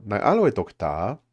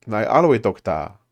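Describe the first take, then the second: First: "Nai aloe dokta" with a rising question tune; rising at the end as if asking; mistaken question intonation. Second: "Nai aloe dokta" as a plain statement with no rise at the end; flat statement tune, final word louder; corrected statement. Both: Shown as a demonstration. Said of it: "Oh, sorry, that wasn't a question".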